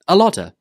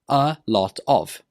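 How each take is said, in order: First: The words run together as one reduced form. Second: The three words are said separately and fully. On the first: "we join them together and it becomes a lodder" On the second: "This is a contraction of three words"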